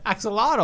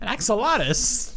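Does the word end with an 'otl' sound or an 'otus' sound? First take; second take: otl; otus. First: The word ends with an 'otl' sound. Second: The word ends with an 'otus' sound. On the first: The speaker calls it right. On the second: The speaker calls it wrong.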